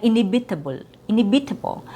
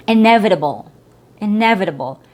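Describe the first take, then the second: First: "inevitable" as in-ee-BEE-table; wrong vowel and stress. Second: "inevitable" as in-EV-itable; short E. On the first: Teacher showing the mistake, misplaced stress. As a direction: shift "inevitable" off its EH, tense vowels. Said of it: "you're also messing up with word stress". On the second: Teacher modelling the word, stressed short E. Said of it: "not inevitable". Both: Shown as a demonstration.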